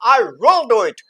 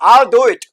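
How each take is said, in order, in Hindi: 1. 'will' शब्द पूरा और ज़ोर से बोला जाता है। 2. 'will' शब्द कम और संक्षिप्त होकर बोला जाता है। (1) "पूरा फुल फॉर्म में स्ट्रॉन्ग फॉर्म में क्यों बोला, क्योंकि यहां ये जोर दे रहा है" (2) "यहां पे शॉर्ट फॉर्म में बोला"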